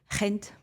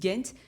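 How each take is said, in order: First: The name is said with a Dutch pronunciation. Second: The name is said with an English pronunciation. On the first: "en Dutch, c'est Gent" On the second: "les Anglais disent Ghent"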